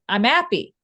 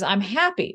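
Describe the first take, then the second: First: The h at the start of happy is dropped. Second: The h at the start of happy is pronounced. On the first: It marks the speaker as working class. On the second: It matches upper-class norms.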